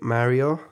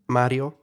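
First: The name is said with an English pronunciation. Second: The name is said with an Italian pronunciation. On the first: "In English, I would say probably Mario" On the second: "I can go with the Italian pronunciation"

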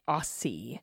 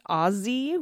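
First: The middle consonant is a soft S sound. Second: The middle consonant is a Z sound. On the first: The speaker calls it wrong. "Americans do it with soft S like sassy or Mississippi" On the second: The speaker calls it right. "with a hard Z, like in buzz or fuzz"

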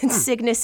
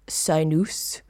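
First: The word is pronounced the usual English way. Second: The word is pronounced the Greek way. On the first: "but we're not Greek, so Cygnus it is" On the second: "If we're doing it the proper Greek way, it's actually Cygnus"

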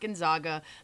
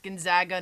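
First: The middle syllable rhymes with 'log'. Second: The middle syllable rhymes with 'bag'. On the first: The speaker calls it wrong. "not Gonzaga" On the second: The speaker calls it right. "it's Gonzaga"

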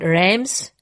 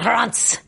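First: The name is said with an American accent. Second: The name is said with a French accent.

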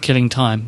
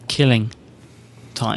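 First: The stress falls on the word time. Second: The stress falls on the word killing. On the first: Time is being wasted. The speaker calls it wrong. "Not killing time" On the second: It is time for killing. The speaker calls it right. "It should be killing time"

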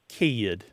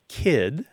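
First: The vowel is stretched into a glide. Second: The vowel is short and single.

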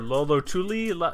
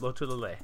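First: The name is said as lo-lo-tu-li. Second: The name is said as lo-tu-la-lei. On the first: The speaker calls it wrong. "I hear Lolotuli" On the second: The speaker calls it right. "No, it's Lotulalei"

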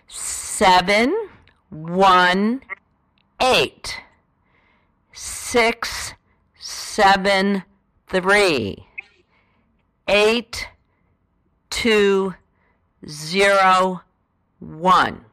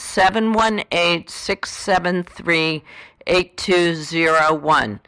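First: The number is read slowly. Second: The number is read at a normal pace.

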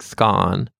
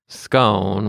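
First: The vowel is a short O, rhyming with gone. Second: The vowel is a long O, rhyming with bone. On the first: "to rhyme with gone with a short O, like scone" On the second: "Americans obviously typically say scone with a long O"

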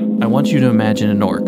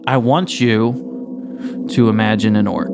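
First: It is said in a low, nasal monotone. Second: It is said in a normal, varied voice.

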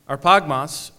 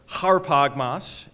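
First: The word starts directly with a vowel sound. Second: The word starts with an h sound.

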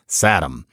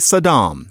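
First: The ending sounds like the end of 'Adam'. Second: The ending sounds like the word 'calm'. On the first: It follows familiar English word patterns. The speaker calls it wrong. "not Saddam" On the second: It is closer to the native pronunciation. The speaker calls it right. "closer to that, for those of us who don't speak Arabic"

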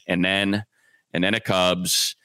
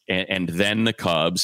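First: The word 'the' sounds like 'da'. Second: The word 'the' has a standard th sound. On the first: The speaker calls it right. "Instead, it's ... everything gets a D" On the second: The speaker calls it wrong. "you don't pronounce like"

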